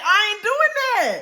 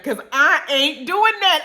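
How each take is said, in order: First: Higher, slower, drawn-out refusal; firm refusal. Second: Said in the usual way. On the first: Retold or imitated. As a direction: stretch out "I ain't doing that" in disbelief. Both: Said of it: "and we literally said".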